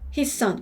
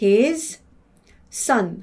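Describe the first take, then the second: First: It is said fast, the sounds merging together. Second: It is said slowly, the words kept apart.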